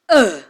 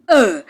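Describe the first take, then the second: First: The vowel is an unrounded 'uh' sound. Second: The vowel is an unrounded 'uh' sound.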